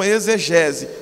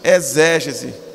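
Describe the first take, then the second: First: The stress falls on the 'ge' syllable. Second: The stress falls on a syllable before 'ge'. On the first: The speaker calls it right. "O tônico está no G" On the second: The speaker calls it wrong. "Eu falava antigamente exégese. E eu passava vergonha"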